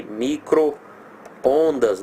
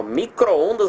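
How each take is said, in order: First: "micro-ondas" hugely drawn out, micro apart from ondas; exaggerated split. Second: Said in the usual way. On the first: Shown as a demonstration. Teacher exaggerating for pupils, "micro-ondas" stretched into two separate pieces. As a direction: exaggerate "micro-ondas" very slowly with a gap at the hyphen. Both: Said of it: "exagerando aqui".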